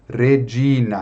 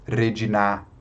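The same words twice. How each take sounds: First: Regina with the stress on "gi"; stress on middle syllable. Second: Redinar as re-gi-NÁ, weight on the final syllable; wrongly stressed last syllable. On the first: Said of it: "isso aqui não existe, redinar". (Regina com a tônica no "gi") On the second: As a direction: move the stress of redinar to the very end. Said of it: "oxítonas em latim". (redinar com a última sílaba tônica) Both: Shown as a demonstration.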